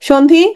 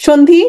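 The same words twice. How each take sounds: The two takes are said the same way.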